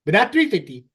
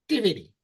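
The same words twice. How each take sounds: First: Said in the usual way. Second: "three fifty" slurred together into one quick syllable. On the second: Shown as a demonstration. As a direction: mash "three fifty" into a single mumbled syllable. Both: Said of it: "you gotta say it all in one syllable".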